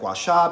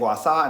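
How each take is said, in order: First: The middle consonant is an 'sh' sound. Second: The middle consonant is a plain 's' sound. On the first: "instead of guasha" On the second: "I am saying guasa instead of guasha because that's just how it's pronounced"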